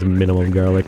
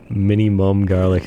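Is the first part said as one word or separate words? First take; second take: one word; separate words. First: The first part is said as one word. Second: The first part is split into separate words. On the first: The speaker calls it right. "I'm pretty sure it's minimum garlic" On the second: The speaker calls it wrong. "in, like, three words"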